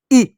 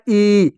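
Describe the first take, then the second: First: ई said as a brief, short vowel. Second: ई held out as a long vowel. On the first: Teacher demonstrating the short vowel sign, brief short ई. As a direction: cut ई off quickly. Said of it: "इसका उच्चारण छोटी ई के रूप में". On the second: Teacher demonstrating the long vowel sign, drawn-out ई. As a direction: stretch ई to "eee". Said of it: "ये आपका बड़ी की मात्रा". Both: Shown as a demonstration.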